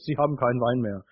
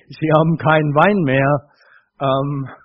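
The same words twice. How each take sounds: First: It is said flatly, as a neutral observation. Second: It is said urgently, as an insistent appeal. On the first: It is just a plain statement of fact. "Es ist einfach eine sachliche" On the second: Someone is being pressed to do something about it. "Oder, hey"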